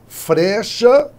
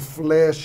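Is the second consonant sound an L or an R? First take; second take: R; L. First: The word has an R after the first consonant. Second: The word has an L after the first consonant. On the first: This is the older form of the word. "era a forma antiga" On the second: This is the modern, easier form of the word. "não é mais fácil dizer"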